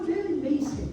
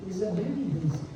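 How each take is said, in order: First: "Very basic." said higher; emphatic. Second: Said in the usual way. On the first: Shown as a demonstration. Preacher stresses very basic to the congregation. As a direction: lift "Very basic." up high.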